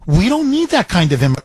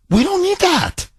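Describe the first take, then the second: First: Said in the usual way. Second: Much higher, mocking the idea; high mock emphasis. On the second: Dismissing unwanted immigrants, high mocking voice. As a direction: toss it off in a squeaky high voice. Repeats the line, pitched way up.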